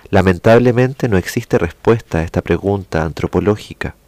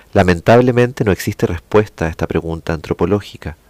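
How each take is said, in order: Both takes have the same delivery.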